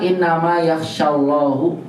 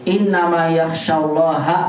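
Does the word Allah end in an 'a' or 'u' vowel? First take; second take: u vowel; a vowel. First: The word Allah ends with a 'u' vowel. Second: The word Allah ends with an 'a' vowel. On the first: Allah is the one who fears the scholars. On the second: The scholars are the ones who fear Allah.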